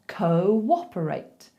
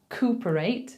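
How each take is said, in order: First: A w glide links the first two vowels. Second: The first two vowels are said without a w glide. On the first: The speaker calls it right. "We have to insert a little w in there" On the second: The speaker calls it wrong. "instead of saying cooperate"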